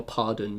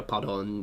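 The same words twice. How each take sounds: First: Pardon with an English "-dun" ending; English-sounding pronunciation. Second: Pardon with a French "-don" ending; French pronunciation. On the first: Streamer giving a word for sorry, English-sounding pardon. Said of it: "is sorry, or". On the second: Streamer showing what to say in Paris, French-accented pardon. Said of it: "do put a French accent on". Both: Shown as a demonstration.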